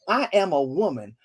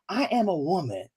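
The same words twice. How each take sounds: First: It is said with bold, sassy attitude. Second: It is said in a plain, neutral way.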